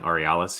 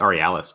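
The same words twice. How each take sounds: First: "Aurealis" with a long AH, or-ee-AH-lis; local pronunciation. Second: "Aurealis" with a short A, or-ee-AL-is; former pronunciation. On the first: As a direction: say "Aurealis" with the A of "father". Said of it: "I heard people saying Aurealis here". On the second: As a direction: say "Aurealis" with the A of "pal". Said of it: "I always used to say Aurealis". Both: Shown as a demonstration.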